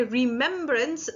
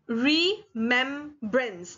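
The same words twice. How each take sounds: First: Said in the usual way. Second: "remembrance" very slowly as re, mem, brance; divided syllables. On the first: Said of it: "when we say remembrance". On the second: Shown as a demonstration. Teacher showing where the word divides, "remembrance" said re, mem, brance. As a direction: break "remembrance" into three separate syllables. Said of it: "that divide is there".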